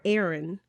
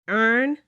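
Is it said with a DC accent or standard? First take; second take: standard; DC. First: It is said in a standard accent. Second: It is said in a DC accent.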